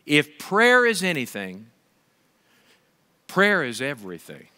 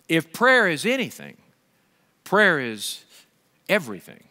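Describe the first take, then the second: No difference in how they are said.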